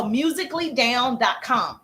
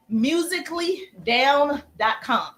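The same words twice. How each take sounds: First: Said in the usual way. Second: Slow, spaced "musically down dot com"; slow dictation. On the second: Shown as a demonstration. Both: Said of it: "write that down".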